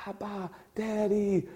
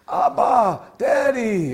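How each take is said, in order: First: Put-on Abba, Daddy said slowly and softly like a toddler; like a little boy. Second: Abba, Daddy cried out high and loud; joyful cry. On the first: Shown as a demonstration. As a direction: coo it gently, slow, like a small child's first words. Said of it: "like a little boy is just learning how to speak". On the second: Acted. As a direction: call out Daddy with bursting joy. Preacher voices joyful cry to God.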